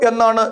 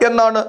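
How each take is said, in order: Both takes have the same delivery.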